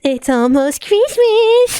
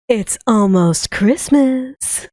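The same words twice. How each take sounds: First: It is said in a plain voice. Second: It is said in a sultry voice.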